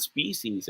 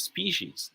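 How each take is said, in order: First: Species as SPEE-seez; plain s in the middle of species; wrong pronunciation. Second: Species as SPEE-sheez; correct pronunciation. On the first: Tutor shows what to avoid, wrong pronunciation. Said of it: "not species". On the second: Tutor tells class the right way, correct pronunciation. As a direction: put sh in the middle of species. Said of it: "It's pronounced as species". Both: Shown as a demonstration.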